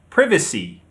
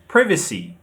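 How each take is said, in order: First: British pronunciation, stressed on the second syllable. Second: British pronunciation, stressed on the second syllable.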